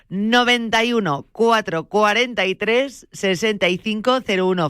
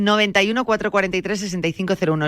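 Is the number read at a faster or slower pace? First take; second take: slower; faster. First: The number is read more slowly and deliberately. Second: The number is read at a normal, quicker pace.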